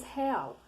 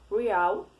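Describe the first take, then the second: First: "real" with Portuguese h sound, he-AW. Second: "real" as English REE-al, long i sound and no h. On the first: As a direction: say "real" the Brazilian way, heaw. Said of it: "e em português". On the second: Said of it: "Em inglês, a gente diz real". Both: Shown as a demonstration.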